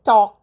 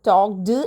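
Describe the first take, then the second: First: The word ends with a short 't' sound. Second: The word ends with an extra 'ed' syllable. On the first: The speaker calls it right. "ട് ട് ട് ആണ് last ഉച്ചാരണം വരേണ്ടത്" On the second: The speaker calls it wrong. "എന്നല്ല പറയുക"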